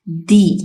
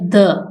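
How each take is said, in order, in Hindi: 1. यह शब्द लंबी 'ee' वॉवल ध्वनि पर खत्म होता है। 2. यह शब्द छोटी 'uh' वॉवल ध्वनि पर खत्म होता है। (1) "जब द यूज किया जाएगा इन वॉवल साउंड से पहले तो उसको प्रोनाउंस किया जाएगा दी" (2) "जब ये द लगाया जाएगा किसी कॉन्सोनेंट साउंड से पहले तो उसको प्रोनाउंस किया जाएगा"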